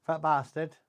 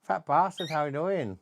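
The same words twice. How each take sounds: First: FAT lifted high for the bird; coaching parrot, fat stressed. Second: FAT lifted high for the bird; high sing-song, "Fat" on top; pitched-up drill for a parrot; coaching parrot, fat stressed. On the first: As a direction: say "Fat bastard" pitched up for a parrot to copy. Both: Shown as a demonstration.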